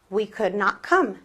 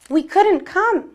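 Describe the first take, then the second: First: Could and not are said as two words. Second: Could not is contracted into one word. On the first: It is a more formal way to say it. "Lo mismo" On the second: It is the common, everyday way to say it. "se me hace más cómodo decir couldn't"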